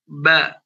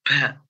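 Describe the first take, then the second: First: It is said without escaping breath. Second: It is said with breath escaping. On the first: The speaker calls it right. "Contohnya huruf ba" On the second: The speaker calls it wrong. "Ada nafasnya ya. Itu keliru"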